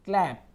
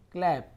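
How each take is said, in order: Both takes have the same delivery.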